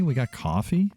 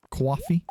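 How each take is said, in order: First: Said in the usual way. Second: Coffee said Boston style as kwahfee, pitched up; "Coffee?" with a Boston kw-ah vowel, high and questioning; Boston accent. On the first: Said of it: "Who says it that way?". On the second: Shown as a demonstration. Gamer spots coffee and tries a Boston accent. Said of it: "the Bostonian accent?".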